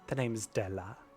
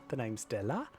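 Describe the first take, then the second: First: It is said in a less Cockney voice. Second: It is said in a more Cockney voice. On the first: The speaker calls it wrong. "I did the wrong voice" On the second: The speaker calls it right. "I meant to make it more Cockney"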